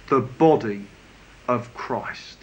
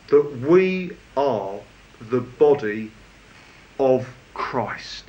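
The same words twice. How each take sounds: First: Hushed repeat that lands on body; soft emphatic repeat. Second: Slow, stress on we, the body of Christ falling low; weighty pauses between each phrase; slow emphatic phrase. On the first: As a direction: stress on body, quieter and lower. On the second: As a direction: lean on we, then let body of Christ sink. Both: Shown as a demonstration. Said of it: "where the emphasis really is".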